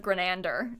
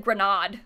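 First: Grenander said "grih-NAN-der", with a short A; Grenander, middle syllable like "nan", not "nahd"; correct surname. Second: Grenade said "gruh-NAHD", with a broad AH; imitated misreading of Grenade, long open AH in the stressed syllable; mispronounced surname. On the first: Shown as a demonstration. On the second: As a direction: say Grenade wrongly, rhyming it with "nod". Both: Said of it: "instead of Grenander".

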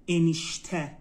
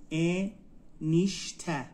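First: Said in the usual way. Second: انیشته very slowly as ا، نیش، ته; slow teaching demo of انیشته, split into syllables. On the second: Shown as a demonstration. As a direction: sound out انیشته in three separated beats. Teacher breaks word into syllables.

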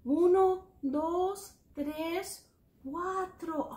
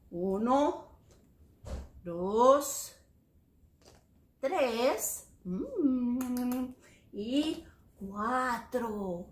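First: Higher-pitched count without long gaps; brisk recount. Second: Drawn-out numbers, pausing after each; slow teaching count. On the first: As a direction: run through the numbers in one steady series. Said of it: "How many is cuatro?". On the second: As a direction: count out one at a time with long gaps. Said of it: "Let's count them en español". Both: Shown as a demonstration.

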